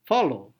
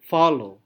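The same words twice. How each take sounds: First: The stress is on the second syllable. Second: The stress is on the first syllable. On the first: "Low-nya yang kuat" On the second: "Fa-nya ditekankan"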